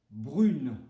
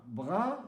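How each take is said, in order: First: "brune" with a French U and sounded N; louder "brune", closing on a clear N; different sound. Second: "brun" ending in a nasal vowel, N not sounded; different vowel sound. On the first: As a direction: feminine "brune", oral vowel then N. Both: Shown as a demonstration. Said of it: "est différent".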